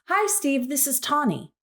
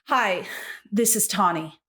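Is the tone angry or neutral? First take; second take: neutral; angry. First: It is said in a neutral, friendly tone. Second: It is said in an exasperated, angry tone.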